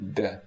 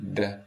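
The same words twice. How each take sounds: Both takes have the same delivery.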